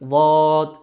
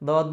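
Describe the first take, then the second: First: It is a heavy, thick d-like sound. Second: It is a light, plain d-like sound. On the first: The speaker calls it right. "জিহ্বার গোড়ার কিনারা দিয়ে দদ" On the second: The speaker calls it wrong. "এখানে উপর তালুতে লাগাই দদ বলি, তাহলে কিন্তু সঠিক উচ্চারণ হলো না"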